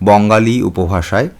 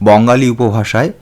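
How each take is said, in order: No difference in how they are said.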